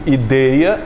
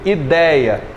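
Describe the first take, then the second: First: The diphthong vowel is closed, like 'ê'. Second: The diphthong vowel is open, like 'é'. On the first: The speaker calls it wrong. "eu não digo ideia" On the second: The speaker calls it right. "eu digo ideia. Ele é aberto"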